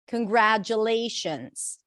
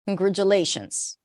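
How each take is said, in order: First: The second syllable has the vowel of cat. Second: The second syllable has a reduced schwa vowel. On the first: The speaker calls it right. "It is an a as in cat" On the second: The speaker calls it wrong. "say it to yourself with a schwa"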